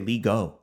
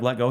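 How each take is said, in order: First: The t is dropped after a long ee vowel. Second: The t is sounded after a short vowel. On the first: An older relative says it this way. "You're completely changing the vowel properties of e there in let, and you're just disregarding the t" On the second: This is the usual way to say it. "instead of let go"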